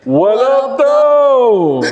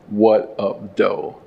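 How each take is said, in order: First: It is said loudly, with lively enthusiasm. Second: It is said plainly, without much energy.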